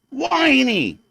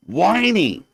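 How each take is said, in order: First: "Whiny" said higher in a mocking whine; mocking "Whiny" pitched up and dragged. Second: Said in the usual way. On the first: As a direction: whine the word "Whiny" like a brat. Repeating the word whiny.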